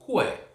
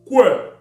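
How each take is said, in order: First: It is said in a neutral, plain voice. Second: It is said threateningly in a deep bass voice.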